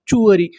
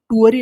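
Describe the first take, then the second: First: It begins with a 'ch' sound. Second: It begins with a plain 't' sound. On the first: The speaker calls it right. "इसका सही उच्चारण क्या है?" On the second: The speaker calls it wrong. "इससे हम लोग टूअरी नहीं पढ़ेंगे"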